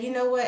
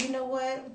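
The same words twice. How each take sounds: First: Loud, heated opener; forceful, agitated lead-in; worked up. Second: Toned-down, more measured opener; reined-in, deliberately calmer lead-in; bringing self down. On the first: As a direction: act out snapping before you catch yourself. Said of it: "then I tried to bring myself down". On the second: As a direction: catch yourself and ease off. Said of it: "I tried to bring myself down". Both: Retold or imitated.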